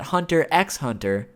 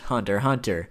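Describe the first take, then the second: First: The middle x is said aloud between the words. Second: The middle x is silent between the words. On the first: "I just personally think that Hunter x Hunter sounds cooler" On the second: "I know it's pronounced Hunter Hunter"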